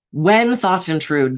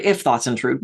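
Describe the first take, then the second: First: When drawn out and emphasised; stress on When. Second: Said in the usual way. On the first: Shown as a demonstration. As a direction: lean slowly on the word When. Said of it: "this was so exciting to me". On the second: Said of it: "I had always heard".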